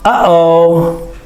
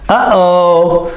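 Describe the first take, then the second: No difference in how they are said.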